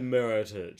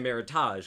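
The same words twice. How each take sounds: First: It is said to rhyme with heritage. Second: It is said with a fancy French-sounding ending. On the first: "it's supposed to sound like heritage" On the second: "you might say Meritage, because you want to sound fancy"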